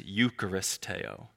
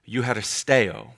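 First: The middle consonant is a hard k sound. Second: The middle consonant is a soft h sound. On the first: The speaker calls it wrong. "you read it as eucharisteo" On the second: The speaker calls it right. "that's not how you pronounce it"

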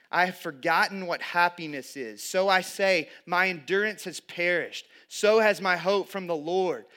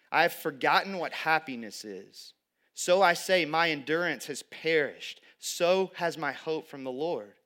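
The two takes are said the same way.

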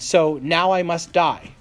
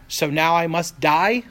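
First: It is said as a flat statement. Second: It is said as a questioning rise.

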